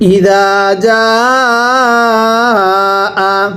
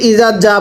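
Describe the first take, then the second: First: The vowel is drawn out, held long. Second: The vowels are short, without a held stretch. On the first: The speaker calls it right. "আমি কিন্তু ইজা এর মধ্যে আগে টান দিছি" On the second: The speaker calls it wrong. "আপনারা অনেকে ইজা যা পড়েন"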